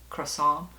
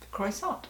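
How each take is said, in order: First: It is said the French way, without the T. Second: It is said as spelled, with the final T. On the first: The speaker calls it right. "The T is silent" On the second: The speaker calls it wrong. "you say it like it's spelled"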